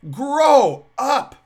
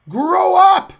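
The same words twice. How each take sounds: First: Loud, scolding grow up; stern grow up. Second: Full shout, much higher and louder; shouted grow up. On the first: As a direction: bark the rebuke. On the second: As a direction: yell it at them with force. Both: Real, not acted. Scolding the professors.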